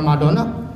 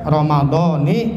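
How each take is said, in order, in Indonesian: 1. Kata itu berakhir dengan vokal a. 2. Kata itu berakhir dengan vokal i. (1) "secara ilmu nahwu keliru bacanya" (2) "maka bacanya Ramadhani"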